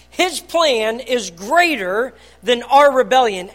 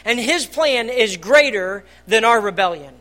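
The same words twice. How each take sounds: First: "our rebellion" slower and louder, pressed home; emphatic slow repeat. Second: Said in the usual way. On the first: Real, not acted. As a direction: lean on each word of "His plan is greater than our rebellion".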